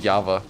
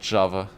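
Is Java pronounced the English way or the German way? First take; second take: German; English. First: The word is pronounced the German way. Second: The word is pronounced the English way. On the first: The speaker calls it right. "In German, it's Java" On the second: The speaker calls it wrong. "not Java"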